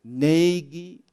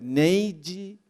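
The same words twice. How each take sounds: Both takes have the same delivery.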